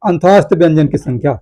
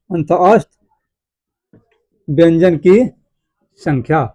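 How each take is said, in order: First: Said in the usual way. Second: Broken into pieces with very long pauses; slow dictation. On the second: Shown as a demonstration. Teacher dictating key points to students, halting for writing. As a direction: leave time to write after each piece.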